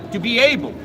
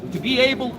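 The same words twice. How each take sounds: The two takes are said the same way.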